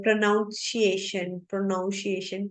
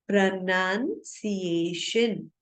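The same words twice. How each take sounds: First: प्रोनाउंसिएशन with "noun" as the second syllable; common mispronunciation. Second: प्रोनाउंसिएशन with "nun" as the second syllable; correct pronunciation. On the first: Teacher showing learners how people often say it, mispronounced with "noun". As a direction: say प्रोनाउंसिएशन wrongly as pro-NOUN-shee-ay-shun. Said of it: "हम अक्सर ऐसे बोलते हैं". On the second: Teacher modelling the correct word for learners, pronounced with "nun". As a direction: say प्रोनाउंसिएशन as pruh-NUN-see-ay-shun. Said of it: "इसका जो correct प्रोनाउंसिएशन है". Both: Shown as a demonstration.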